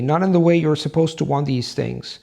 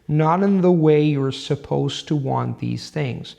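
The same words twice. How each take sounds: First: It is read at an ordinary reading pace. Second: It is read at a steady, deliberate rhythm. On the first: "how um, a person would read, would read normally" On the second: "at the rhythm I'm suggesting, you would read it like this"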